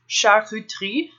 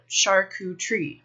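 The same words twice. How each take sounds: First: The word is said with a French pronunciation. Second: The word is said with an American pronunciation. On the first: This is how it is said in France. "In France, it's charcuterie" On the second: This is how it is said in America. "in America, we can call it charcuterie"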